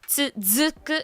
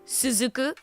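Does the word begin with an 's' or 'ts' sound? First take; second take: ts; s. First: The word begins with a 'ts' sound. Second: The word begins with a plain 's' sound. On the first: The speaker calls it right. "it's "tsuzuku,"" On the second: The speaker calls it wrong. "it's not "suzuku.""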